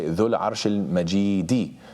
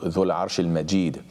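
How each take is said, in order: First: The last word ends with an added 'i' vowel. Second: The last word ends without an 'i' vowel. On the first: The throne itself is the majestic one. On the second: The owner of the throne is the majestic one.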